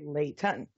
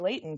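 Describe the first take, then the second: First: The name is said carefully with every sound. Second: The name is said in a lazy, reduced way. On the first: "lazy to to say Layton" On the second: "we always say Layton because we're kind of like lazy"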